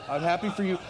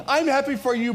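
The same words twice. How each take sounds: First: Said in the usual way. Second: "happy for you" said higher and louder; emphatic repeat. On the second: Real, not acted. Pastor joking about gluten-free bread, "happy for you" punched high and loud. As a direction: insist on "happy for you", setting up a contrast.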